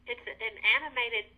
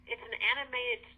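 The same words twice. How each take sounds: The two takes are said the same way.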